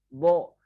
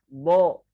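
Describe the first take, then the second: The two takes are said the same way.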